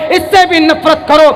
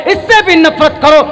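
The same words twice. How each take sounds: The two takes are said the same way.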